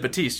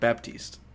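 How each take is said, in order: First: The name is said without a p sound. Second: The name is said with a p sound. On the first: The speaker calls it right. "I said Batiste. ... I pronounced it right" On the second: The speaker calls it wrong. "You said Baptiste. ... He said it wrong"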